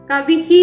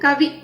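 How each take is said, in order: First: The final h has a full vowel echo. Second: The final h has only a faint vowel echo. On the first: The speaker calls it wrong. "കവി പൂർണ്ണമായിട്ട് നമ്മൾ കവിഹി എന്ന് പറയാൻ പാടില്ല" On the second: The speaker calls it right. "പൂർണ്ണ പകുതി ഉച്ചാരണമേ വരാൻ പാടുള്ളൂ"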